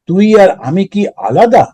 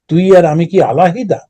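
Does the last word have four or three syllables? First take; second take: three; four. First: The last word is said with three syllables. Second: The last word is said with four syllables.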